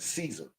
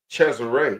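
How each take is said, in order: First: The name is said with two syllables, English-style. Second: The name is said with three syllables, Spanish-style. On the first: "in, I guess, the King's English, they pronounced it Caesar" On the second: "in the Spaniard, you would pronounce it Cesare"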